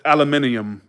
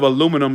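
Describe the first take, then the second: First: "aluminium" as al-uh-MIN-ee-um; British pronunciation. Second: Said in the usual way. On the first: Shown as a demonstration. Quoting the London friend, "aluminium" as al-uh-MIN-ee-um. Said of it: "she says aluminium". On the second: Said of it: "instead of aluminum".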